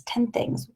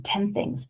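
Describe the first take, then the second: First: "ten things" repeated softly, almost whispered; soft echo. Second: Said in the usual way. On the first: Real, not acted. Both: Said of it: "just write down ten things".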